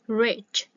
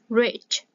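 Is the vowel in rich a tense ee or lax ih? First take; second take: ih; ih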